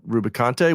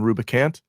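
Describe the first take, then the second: First: The name ends on an extra vowel syllable. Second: The name ends on a consonant sound. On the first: The speaker calls it right. "the proper pronunciation ... he is Picante" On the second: The speaker calls it wrong. "for about thirty years I was calling him Rubicant"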